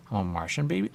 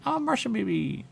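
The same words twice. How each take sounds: First: Said in the usual way. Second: Pitched way up, playful; squeaky hammed-up Martian; high silly voice. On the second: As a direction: sing it up high like a cartoon. Repeating the Martian line twice.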